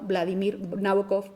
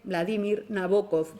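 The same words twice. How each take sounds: First: The name is said in the usual Spanish style. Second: The name is said in its original style. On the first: The speaker calls it wrong. "y no Vladimir Nabokov como solemos hacer en España" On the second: The speaker calls it right. "se pronuncia así"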